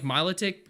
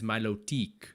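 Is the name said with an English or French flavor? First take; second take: English; French. First: The name is said with a plain English flavor. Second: The name is said with a French flavor.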